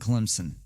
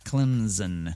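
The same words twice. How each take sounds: First: The middle consonant is a hissing S sound. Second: The middle consonant is a buzzing Z sound. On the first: The speaker calls it right. "There is no Z in Clemson" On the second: The speaker calls it wrong. "they did not pronounce it Clemson"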